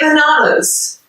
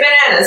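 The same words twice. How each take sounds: First: It is said with an Australian accent. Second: It is said with an American accent. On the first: "In Australia, we say bananas. It sounds very posh" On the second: "But in America, you say bananas"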